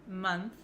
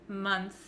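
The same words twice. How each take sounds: The two takes are said the same way.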